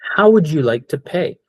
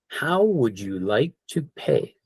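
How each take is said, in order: First: It is said a little faster. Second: It is said at a normal pace.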